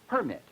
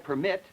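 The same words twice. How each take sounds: First: The stress is on the first syllable. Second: The stress is on the second syllable. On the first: It is used as a noun. "the word permit is a noun" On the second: It is used as a verb. "in I permit, where the primary stress is on the second syllable"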